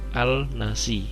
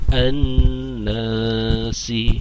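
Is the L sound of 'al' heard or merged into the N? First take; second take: heard; merged. First: The L sound is pronounced before nasi. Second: The L merges into a doubled N sound. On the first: "kalau dibaca secara biasa itu harusnya al-nasi" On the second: "dibaca al samsiah sehingga dibaca an-nasi"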